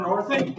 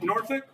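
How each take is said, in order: First: Said in the usual way. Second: Norfolk repeated with a rising question tune; questioning echo. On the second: Shown as a demonstration. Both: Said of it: "Why Norfolk?".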